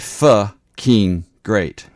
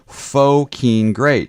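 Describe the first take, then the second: First: Pho is said the Vietnamese way. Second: Pho is said the English way. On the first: The speaker calls it right. "In Vietnamese, P H O is pronounced Pho" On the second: The speaker calls it wrong. "I didn't pronounce it right"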